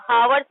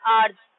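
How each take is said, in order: First: हावर्स said wrongly with an h at the start; हावर्स with a breathy h first; sounded h. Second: आवर्स said with no h, low and firm; आवर्स, vowel first, no h; silent h. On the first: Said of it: "हावर्स नहीं बोलते". ("हावर्स" शुरू में ह के साथ, गलत उच्चारण) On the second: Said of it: "आवर्स बोलते हैं". ("आवर्स" बिना ह के, धीमे स्वर में) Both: Shown as a demonstration.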